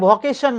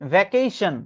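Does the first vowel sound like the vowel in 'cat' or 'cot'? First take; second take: cot; cat. First: The first vowel sounds like the 'o' in cot. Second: The first vowel sounds like the 'a' in cat. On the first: The speaker calls it wrong. "এটা ভকেশন না" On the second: The speaker calls it right. "এটা ভ্যাকেশন"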